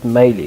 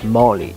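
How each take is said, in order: First: The first syllable sounds like 'may'. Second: The first syllable sounds like 'mar'. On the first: The speaker calls it wrong. "It's not Maley" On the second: The speaker calls it right. "it's Marley"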